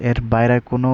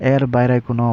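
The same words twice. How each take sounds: The two takes are said the same way.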